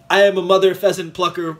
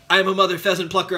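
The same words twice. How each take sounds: First: It is said at normal speed. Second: It is said fast.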